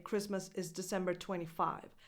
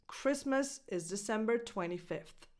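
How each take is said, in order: First: "twenty-five" with no th ending; mistaken cardinal date. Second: "twenty-fifth" finishing in a clear f-th; correct ordinal date. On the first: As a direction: end on "twenty-five" with a v sound. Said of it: "That's a big mistake". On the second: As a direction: end on "twenty-fifth" with a th sound. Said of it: "You don't say". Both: Shown as a demonstration.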